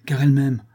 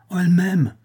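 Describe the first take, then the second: First: Said in the usual way. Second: Higher, overjoyed outburst on M'AIME; elated exclamation. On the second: A narrator's reading. Husband confiding his wife loves him, elated. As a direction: exclaim it in sudden rapture. Happy husband repeats it more ardently.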